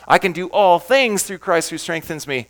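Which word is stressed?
things. The word "things" is stressed.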